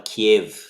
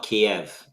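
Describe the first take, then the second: First: "Kiev" with an ih in the end, KEE-iv; Ukrainian pronunciation. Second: "Kiev" with an eh, kee-EV; old familiar pronunciation. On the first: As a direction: say Kiev as Kyiv, short i before v. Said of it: "I've seen it in the Ukraine as well". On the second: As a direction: say Kiev the old English way, ending -ev. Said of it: "the way we always pronounce it". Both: Shown as a demonstration.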